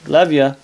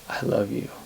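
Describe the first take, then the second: First: It is said lightly and casually. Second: It is said earnestly and with deep feeling. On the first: It is a friendly, offhand expression of affection. "The first one is to say, hey, yeah, I love you too" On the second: It is a serious declaration of romantic love. "you look them in the eyes and say"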